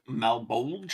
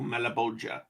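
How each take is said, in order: First: The name is said in an English-style pronunciation. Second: The name is said in an Italian-style pronunciation. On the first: This is how most people say it today. "most people will probably pronounce it uh, Malbolge" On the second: This is how it was originally said. "the original Italian pronunciation would have been closer to Malabolgia"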